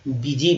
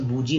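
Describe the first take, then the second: First: The first vowel sounds like ee. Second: The first vowel sounds like oo. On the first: The speaker calls it right. "बीजी बोलेंगे" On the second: The speaker calls it wrong. "इसको बूजी नहीं बोलेंगे"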